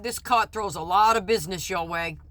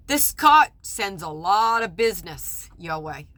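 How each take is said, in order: First: Said in the usual way. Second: Slow and deliberate, with weight on "lot"; pointed, imitating the judge. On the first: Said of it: "what he said and how he said it". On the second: Judge reminding a doctor who sends him business, slow and pointed. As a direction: spell it out slowly, leaning on "lot" as a heavy hint. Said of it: "I'll never forget what he said and how he said it".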